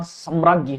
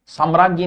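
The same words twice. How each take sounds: First: सम्राज्ञी as sam-raag-gee; correct pronunciation. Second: साम्राज्ञी with long saam; wrong pronunciation. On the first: Teacher giving the correct word, careful pronunciation. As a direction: say सम्राज्ञी, first vowel short. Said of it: "सम्राज्ञी होता है". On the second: Teacher showing students the mistake, mispronounced demo. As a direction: say साम्राज्ञी, stretching the first vowel. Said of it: "साम्राज्ञी नहीं होता". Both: Shown as a demonstration.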